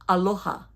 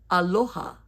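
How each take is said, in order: The two takes are said the same way.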